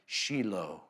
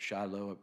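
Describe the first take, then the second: First: The name has a Hebrew pronunciation. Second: The name has a Southern American pronunciation. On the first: The speaker calls it right. "In Hebrew, they kept correcting me on Shiloh" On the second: The speaker calls it wrong. "in the South, we pronounced it Shiloh"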